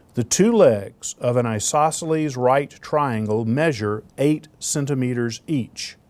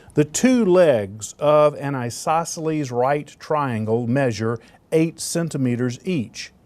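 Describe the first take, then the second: Both takes have the same delivery.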